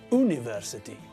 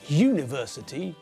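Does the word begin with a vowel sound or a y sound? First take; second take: vowel sound; y sound. First: The word begins with a vowel sound. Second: The word begins with a y sound. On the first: The speaker calls it wrong. "not university" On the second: The speaker calls it right. "we pronounce it with a y as the first letter"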